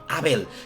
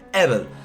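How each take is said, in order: First: The name is said with Spanish vowels. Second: The name is said like English 'evil'.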